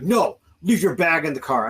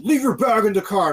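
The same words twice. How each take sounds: First: A firm order, somewhat raised; retold firm order. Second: Higher, louder mock cop shout; insistent mock bark, pitched up; retold barked order. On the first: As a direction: imitate an officer's firm command. Retold officer giving orders in standoff. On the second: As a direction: imitate an officer shouting an order. Retold officer repeating order, escalating.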